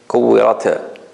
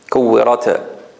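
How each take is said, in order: First: The final t releases with a strong bounce. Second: The final t releases with a strong bounce.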